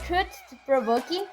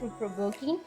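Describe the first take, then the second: First: The first word's final sound is fully pronounced. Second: The first word's final sound is dropped. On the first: The speaker calls it wrong. "there will be like two sounds, and that is automatically incorrect" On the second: The speaker calls it right. "I'm not uh, pronounce the last word of true because I'm saying true without the letter T"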